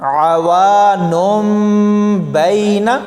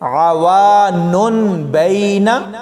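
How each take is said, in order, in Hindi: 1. b से पहले m की आवाज़ आती है। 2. b से पहले n की आवाज़ आती है। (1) "इस लफ्ज़ को अब हमने ऐसे पढ़ना है" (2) "ऐसे ये गलत होगा"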